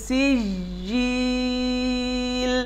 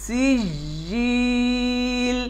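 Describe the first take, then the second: Both takes have the same delivery.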